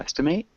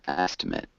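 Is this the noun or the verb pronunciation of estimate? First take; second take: verb; noun. First: It is said with the verb pronunciation. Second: It is said with the noun pronunciation. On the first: It names the action of estimating. "we have the verb to estimate" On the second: It names the result, a guess. "and an estimate"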